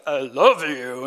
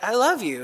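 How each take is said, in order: First: Low, slow mock-menacing reading; misread as harsh. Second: Said in the usual way. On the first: Reader misreading a kind Facebook post, mock-hostile. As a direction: drag it out low, as if it were sinister. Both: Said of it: "they see it in a different light".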